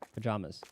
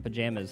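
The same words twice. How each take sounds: First: It is said with a general American vowel. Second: It is said with a New York-like vowel. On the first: "I mainly say the former" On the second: "sounds very more New York-ish"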